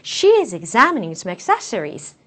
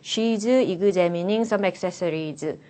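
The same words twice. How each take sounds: First: It is read confidently with lively, exaggerated intonation. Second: It is read flatly, robotically, with a Korean accent. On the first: The speaker calls it right. "자신감을 가지시고 최대한 오버해서" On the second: The speaker calls it wrong. "로봇처럼 어, 고유한 한국적인 특징을 많이 반영을 시키셔가지고"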